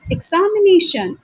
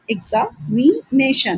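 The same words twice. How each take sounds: First: Said in the usual way. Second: examination slowly broken up as एग्जा-मि-नेशन; syllable by syllable. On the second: Shown as a demonstration. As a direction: pause between the parts of examination. (Examination को हिस्सों में तोड़कर, धीरे) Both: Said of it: "इस तरह से अगर आप देखेंगे".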